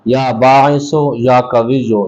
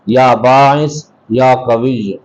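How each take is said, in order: First: The words are linked with final vowels. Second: The words are cut off without final vowels. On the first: "अगर आप इसको मिलाकर पढ़ेंगे" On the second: "अगर आप इसको अलग अलग पढ़ेंगे"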